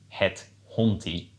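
The word ends with an 'ie' sound. "they say het hondie"

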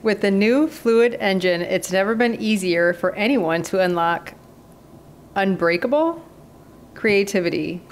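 It sounds flat, like reading aloud.

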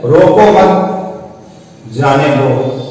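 There is a pause right after 'mat'.

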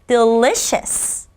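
It is said in a bright, cheerful voice. The food seems tasty. The speaker calls it right. "맛있는 것처럼 하려면 표정도 밝게 하고 목소리도 예쁘게"

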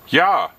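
The voice is loud, like calling out. The speaker is calling out. "which is a shout"

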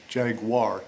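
The word is said with two syllables. "the American pronunciation, two syllables"

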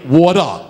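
It is said in a Brooklyn accent, dropping T and R. This is how Brooklyn says it. "We say water. No T, no R"

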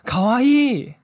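It sounds like genuine, heartfelt praise. The speaker truly means the compliment.

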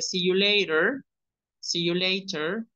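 It is said in an American accent. "en inglés estadounidense se dice see you later"

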